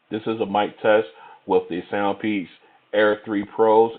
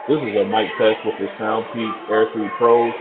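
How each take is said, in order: First: The voice is heard with little background noise. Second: The voice is heard over crowd background noise. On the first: "in a semi-quiet location" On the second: "in a crowded location"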